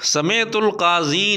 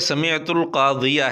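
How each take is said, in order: First: The last word ends in a plain 'i' sound. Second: The last word ends in an 'iya' sound. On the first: The speaker calls it wrong. "समेतुल काजी नहीं है" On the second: The speaker calls it right. "बल्कि समेतुल कादिया है"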